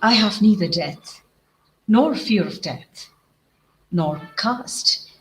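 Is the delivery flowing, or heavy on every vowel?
flowing. The words run together in a smooth rhythm. The speaker calls it right. "So we'll have to say"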